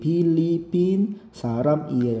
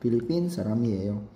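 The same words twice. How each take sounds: First: The syllables are said separately, not joined. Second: The syllables are joined smoothly together. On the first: The speaker calls it wrong. "hindi Philippine saramiyeyo. Hindi pwede" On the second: The speaker calls it right. "kailangan magpukan siya smooth"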